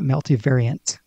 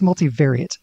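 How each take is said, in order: First: The word ends with an N sound. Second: The word ends without an N sound. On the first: The speaker calls it wrong. "not multivariant" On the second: The speaker calls it right. "I think it's multivariate"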